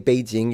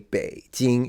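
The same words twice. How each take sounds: First: It is said flat, without Chinese tones. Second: It is said with Mandarin Chinese tones. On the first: This is the adapted form people use. "you probably say Beijing" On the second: This is the native form people avoid. "you don't say Beijing, you don't use the tones"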